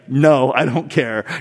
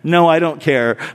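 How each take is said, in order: First: It sounds grudging and annoyed. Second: It sounds plain and sincere. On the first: She actually does object. "But really, it was like ... it was like kind of that tone" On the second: She seems to have no objection. "If I just text it, you know, and she's like"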